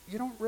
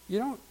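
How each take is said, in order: No difference in how they are said.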